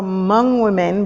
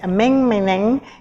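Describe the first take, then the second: First: The words are said with their usual vowels. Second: The vowels are changed, making 'ameng meneng'.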